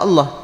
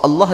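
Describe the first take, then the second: First: "Allah" with a clear final h, "Al-lah"; correct Allah. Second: "Allah" without the final h, said like "Alla"; wrong Allah. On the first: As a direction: sound the h at the end of "Allah". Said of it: "dia tak sebut Allah". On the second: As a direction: drop the h at the end of "Allah". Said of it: "Dia sebut Allah". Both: Shown as a demonstration.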